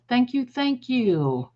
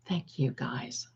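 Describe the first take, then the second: First: Higher, slow gushing thank you. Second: Much softer, lower, slow thank you; quiet thanks. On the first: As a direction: pour out the thanks brightly. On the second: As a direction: drop back to a soft thanks. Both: Real, not acted. Thanking viewers.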